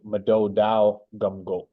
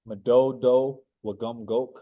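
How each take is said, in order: First: An ow sound replaces the distinct W sound. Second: A distinct W sound is heard mid-word. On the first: It is a noun naming a place. The speaker calls it right. "But since this is a noun, it'd be" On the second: It would be the verb-style form. The speaker calls it wrong. "I'm going to say it wrong"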